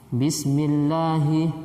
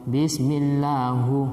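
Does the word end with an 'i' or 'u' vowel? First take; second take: i; u. First: The word ends with an 'i' vowel. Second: The word ends with a 'u' vowel. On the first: The speaker calls it right. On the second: The speaker calls it wrong.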